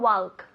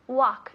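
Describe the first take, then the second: First: The L sound is pronounced. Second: The L sound is silent. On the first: The speaker calls it wrong. "no walk" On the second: The speaker calls it right. "La L no se dice"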